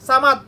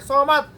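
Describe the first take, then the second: First: The word begins with a plain, light s sound. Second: The word begins with a heavy, rounded s sound. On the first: You are dependent on someone. The speaker calls it wrong. "বেশিরভাগ মানুষ এটা এটা উচ্চারণ করে সামাদ" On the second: You depend on no one. The speaker calls it right. "আমি সোয়ামাদ বলি"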